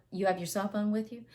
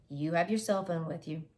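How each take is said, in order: First: "You have your cell phone with you?" rising as a question. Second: "you have your cell phone with you" falling as a statement; flat statement. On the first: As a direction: ask it, lift at the end. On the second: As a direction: read it as a plain statement. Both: Shown as a demonstration.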